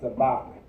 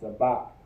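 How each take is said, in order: First: The word ends with a hard k sound. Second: The word ends with a hard k sound.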